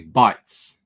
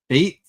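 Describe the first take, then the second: First: The name is read with a German vowel. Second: The name is read with an English vowel. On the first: The speaker calls it wrong. "If I was German, I would say bites" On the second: The speaker calls it right. "Is that how I pronounce that?"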